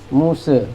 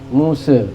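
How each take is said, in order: No difference in how they are said.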